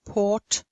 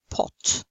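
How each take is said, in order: First: "port" with long aw, no r. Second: "pot" with brief British o; short o. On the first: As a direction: draw out the vowel in "port". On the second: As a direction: keep "pot" short and rounded. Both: Shown as a demonstration. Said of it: "you can hear the difference".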